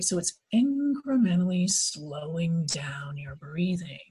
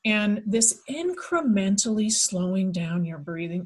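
First: Hypnosis voice. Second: Said in the usual way. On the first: Shown as a demonstration. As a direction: lull them down slowly. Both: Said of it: "Don't be adding that hypnosis voice on there".

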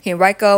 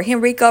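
First: "Henrico" as hen-RYE-koh; Henrico with long I. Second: "Henrico" as hen-REE-koh; Henrico with EE sound. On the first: Unsure host reading a town name, "Henrico" as hen-RYE-koh. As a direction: say "Henrico" with middle syllable like "rye". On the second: Host offering the other option, "Henrico" as hen-REE-koh. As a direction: say "Henrico" with middle syllable like "ree". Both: Shown as a demonstration. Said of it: "tell me how to pronounce your name".

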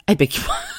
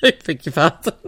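First: Shocked, laughing. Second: Giggling mock outrage; laughing repeat. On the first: Retold or imitated. Brother-in-law shocked at monkey's blood, laughing. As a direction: laugh through the shocked reply. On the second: Brother-in-law repeating the shocked reply, giggling. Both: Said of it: "And he went".

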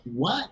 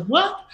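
First: Said in the usual way. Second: Much higher, incredulous rising "What?"; shocked disbelief. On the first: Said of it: "I was like". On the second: Retold or imitated. Son hears mother's unexpected suggestion, stunned high "What?". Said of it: "You know, I was like".

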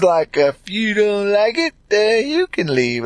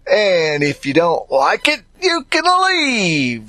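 First: Said in the usual way. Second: Mock-dismissive if you don't like it, you can leave; dismissive brush-off. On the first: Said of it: "that's what we say". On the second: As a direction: shoo them off with a drawn-out leave. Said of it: "That's what some folks say".

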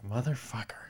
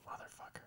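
First: Voiced swear, a bit softer than usual; muttered swear. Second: Fully unvoiced swear, very soft; whispered swear. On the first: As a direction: grumble "Motherfucker." half aloud in disbelief. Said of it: "I was like". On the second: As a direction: breathe the swear out silently. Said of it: "I'm just like".

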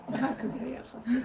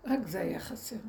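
First: Amused repeat with a laugh; laughing at how absurd it was. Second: Said in the usual way. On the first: Real, not acted. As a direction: say it again, laughing through it.

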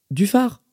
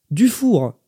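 First: "Dufard" higher with a rising end; "Dufard" lifted, unsure; questioning. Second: "Dufour" pitched up, then falling firmly; "Dufour" high and final; correcting. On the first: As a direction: check the name "Dufard" as a question. Manager mishears the name, checks it. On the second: Lady corrects the name. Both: Acted.

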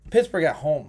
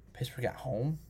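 First: Said in the usual way. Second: Quiet, musing question rising at the end; doubtful question. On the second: Real, not acted. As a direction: say "Pittsburgh at home?" softly, weighing it up. Musing over a game pick.

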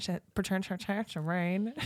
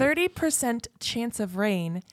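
First: Tripping over "chance"; stumbling. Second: Slow careful "Thirty percent chance of rain"; clearly. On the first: Real, not acted. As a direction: stutter through "chan-, chance of rain". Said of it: "say it clearly". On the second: Shown as a demonstration. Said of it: "You have to say it clearly".

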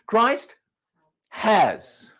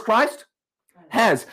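First: "has" stressed, past tense. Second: "has" stressed as already done. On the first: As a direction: lean on "has" as a finished fact. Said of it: "Past tense". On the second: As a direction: correct it: Christ "has". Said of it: "No, it's not what he said". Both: Shown as a demonstration.

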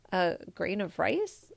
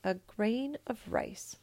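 First: Slow, rising disbelieving question; can't believe what he heard; puzzled question. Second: Said in the usual way. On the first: Acted. Emperor repeats the peasant's request, puzzled rising. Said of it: "repeated the emperor".

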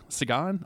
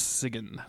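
First: "Sigan" as sig-AHN, questioning; "Sigan?" tried out with a long final AH; alternative pronunciation. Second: "Sigan" as SIG-un; "Sigan" rhyming roughly with "wagon"; first pronunciation attempt. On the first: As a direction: say "Sigan" with an open AH, pitch rising. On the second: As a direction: say "Sigan" with an unstressed, neutral second vowel. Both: Shown as a demonstration. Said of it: "forgotten how they said it".

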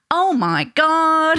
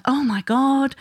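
First: Drawn-out, loud American "Oh my God"; American accent. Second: Said in the usual way. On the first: Retold or imitated. Mum imitating her little boy going round saying it, American accent. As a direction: imitate a child's high, slow American accent. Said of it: "does it with an American accent". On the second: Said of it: "he hears me say a lot".

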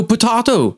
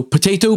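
First: "potato" as po-TAH-to, falling; broad A potato. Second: "potato" as po-TAY-to, lifted at the end; high, rising po-TAY-to for "potato"; long A potato. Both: Shown as a demonstration. Contrasting two pronunciations.

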